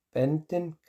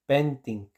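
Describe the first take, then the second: First: "Benting" con vocal final abierta, como "benten"; pronunciación escrita. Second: "benting" con i cerrada y caída final; pronunciación recomendada. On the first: ("Benting" con i abierta) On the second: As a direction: di "benting" despacio, con i española. ("benting" lento, i cerrada) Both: Shown as a demonstration. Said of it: "se dice benting".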